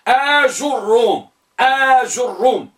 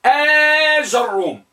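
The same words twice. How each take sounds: First: آجروم slowly as aa-jur-rum; long آ, then rounded ju in آجروم; damma on jim. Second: آجروم slowly as aa-jar-rum, higher pitched; long آ, then ja in آجروم; fatha on jim. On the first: Teacher recalling the fourth type, slow with rounded jim. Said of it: "بضم الجيم". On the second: Teacher showing the fifth type, slow with open jim. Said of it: "تكون مفتوحة". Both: Shown as a demonstration.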